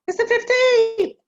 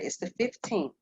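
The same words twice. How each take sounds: First: The voice sounds anxious and startled. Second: The voice sounds calm and measured. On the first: The speaker is panicking about the problem. The speaker calls it wrong. "That's worry" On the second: The speaker is thinking about the options. The speaker calls it right. "Concern is okay"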